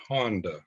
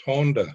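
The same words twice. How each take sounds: First: Honda like the car, "HAHN-da"; Honda, Americanized as HON-duh; mispronounced name. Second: Honda with a long O, "HOHN-da"; Honda, first syllable like "hone"; name pronounced correctly. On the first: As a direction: say Honda with an open "ah" first vowel. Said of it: "not Honda". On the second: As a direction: say Honda as HOHN-duh, rounded first vowel. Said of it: "she says it's pronounced Honda". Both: Retold or imitated.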